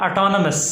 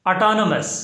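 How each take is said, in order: No difference in how they are said.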